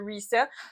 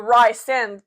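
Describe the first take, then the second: First: The name is said with the author's intended pronunciation. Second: The name is said as it looks when read. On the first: This is how the author says it should be pronounced. The speaker calls it right. "tu sais après ça que c'est resend" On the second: This is how a reader guesses it from the page. The speaker calls it wrong. "C'est Rysend quand tu lis"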